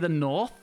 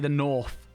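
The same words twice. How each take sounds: First: The word north ends with a TH sound. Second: The word north ends with an F sound. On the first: "I don't say the north" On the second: "it's an F at the end of it instead of a T H"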